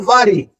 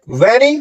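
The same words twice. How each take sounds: First: "वारी" with rounded lips and an "aa" vowel; W sound. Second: "वेरी" with teeth on lip and open e; V sound in very. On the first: Teacher contrasting two words, "वारी" with a W. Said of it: "सिर्फ होठों से round होके". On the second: Teacher contrasting two words, "वेरी" with a V. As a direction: start "वेरी" on a toothy V. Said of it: "दांत और होंठ से बोलता है". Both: Shown as a demonstration.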